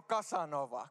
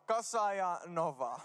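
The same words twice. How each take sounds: First: Said in the usual way. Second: "Kasa ja Nova" slowly, each name set apart; split into two names. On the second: Retold or imitated. Nimi jaetaan kahdeksi lempinimeksi. ("Kasa ja Nova" hitaasti kahtena erillisenä niminä)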